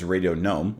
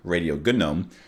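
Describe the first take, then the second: First: The title is said in a plain spoken pronunciation. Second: The title copies the pronunciation heard in the song. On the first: "which is Radio Gnome" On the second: "if we're gonna pronounce it the way he sings it"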